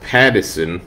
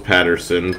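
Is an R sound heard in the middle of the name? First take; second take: no; yes. First: The name is said without an R sound. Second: The name is said with an R sound. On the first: The speaker calls it right. "There's no R in there. ... It's how a New Yorker would say Patterson" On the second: The speaker calls it wrong. "I thought it was Patterson"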